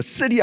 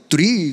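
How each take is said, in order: First: The word begins with a hard s-like sound. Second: The word begins with a soft th-like sound. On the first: The speaker calls it wrong. "쓰리 안 그러고" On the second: The speaker calls it right. "쓰리 그러는 거예요"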